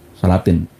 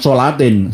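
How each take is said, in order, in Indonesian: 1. Suku kata pertama adalah 'sa' yang datar dan ringan. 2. Suku kata pertama adalah 'so' yang gelap dan membulat. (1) "Salatin niku nganggo huruf sin ya, bukan short" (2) "Bukan solatin"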